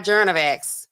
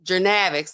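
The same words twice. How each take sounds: First: "Journavax" stressed on JOURN, the first syllable. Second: "Journavx" with the stress on NAV; stress on middle syllable. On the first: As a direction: misplace the emphasis onto the start of "Journavax". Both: Shown as a demonstration. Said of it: "put the emphasis on the right syllable".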